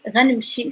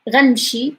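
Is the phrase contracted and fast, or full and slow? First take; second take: contracted and fast; contracted and fast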